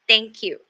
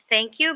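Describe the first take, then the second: First: The first word begins with a hard 't' sound. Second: The first word begins with a soft 'th' sound. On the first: The speaker calls it wrong. "but they say thank you, ... the problem is the T H pronunciation" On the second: The speaker calls it right. "instead of thank you"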